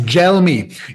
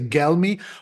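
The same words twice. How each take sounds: First: It begins with a soft J sound. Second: It begins with a hard G sound. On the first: The speaker calls it right. "you pronounce it like gelato" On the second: The speaker calls it wrong. "you might be tempted to say Gelmi"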